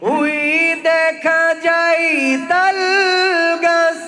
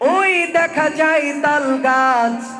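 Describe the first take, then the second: First: It is delivered in a melodic religious-recitation style. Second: It is delivered in a dramatic sermon-preaching style. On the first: "আপনার তেলোয়াতের মতো করে" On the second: "ওয়াইজিন বক্তা যারা, তারা এভাবে কবিতাটি আবৃত্তি করতেন"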